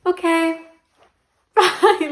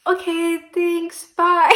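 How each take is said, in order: First: High, flustered goodbye with a laugh; pitched up, laughing at her own awkwardness; awkward quick goodbye. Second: High, flustered goodbye, bye said louder; pitched up and fleeing the awkward moment; awkward quick goodbye. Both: Retold or imitated. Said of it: "I was like".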